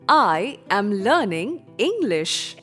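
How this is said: It is said in a proud, confident tone.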